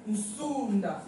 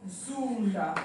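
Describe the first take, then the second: First: Zunda with a prenasal n, nsunda; model pronunciation. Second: Zunda said with a plain s, sunda; corrected Zunda. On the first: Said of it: "à tika la S". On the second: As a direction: repeat Zunda the teacher's way, sunda. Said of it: "mais non". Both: Shown as a demonstration.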